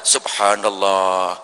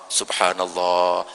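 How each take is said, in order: No difference in how they are said.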